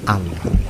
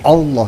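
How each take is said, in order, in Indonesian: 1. Vokal pertama terdengar seperti 'a'. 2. Vokal pertama terdengar seperti 'o'. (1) "dibaca fathah a" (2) "bukan o, bukan Allah"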